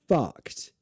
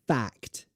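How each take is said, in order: First: The vowel sounds like the one in cup. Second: The vowel sounds like the one in cat. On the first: The speaker calls it wrong. "The bad way" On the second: The speaker calls it right. "the good way"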